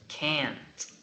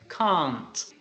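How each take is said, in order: First: It is said with an American accent. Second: It is said with a British accent. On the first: "In the United States" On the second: "With the British pronunciation, we say can't"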